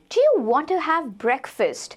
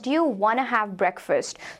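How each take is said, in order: First: "Want to" is said in full, slowly. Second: "Want to" is reduced to "wanna", quickly.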